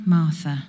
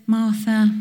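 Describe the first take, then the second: First: Gentle but firm. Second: Lifted calling of the name, gentle but firm. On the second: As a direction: call her name to catch her attention, gently. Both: Retold or imitated. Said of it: "gentle but firm".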